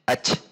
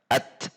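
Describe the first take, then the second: First: The final sound becomes a rasping hiss. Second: The final t is held, then air escapes. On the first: The speaker calls it wrong. "jangan sampai dibaca ach" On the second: The speaker calls it right. "tetapi at tertahan, baru ada udara mengalir"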